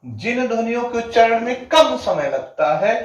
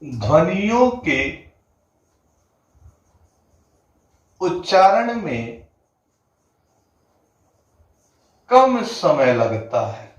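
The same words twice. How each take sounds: First: Said in the usual way. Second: Each phrase spoken slowly with long pauses between, like dictating; slow it right down so students can write ध्वनियों के उच्चारण में कम समय लगता है; slow dictation. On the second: Shown as a demonstration. Hindi teacher dictating the definition to students, slow and spaced. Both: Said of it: "क्या बोला गया?".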